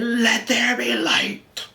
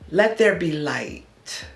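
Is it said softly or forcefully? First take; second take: forcefully; softly. First: It is said strongly and forcefully. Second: It is said softly and weakly.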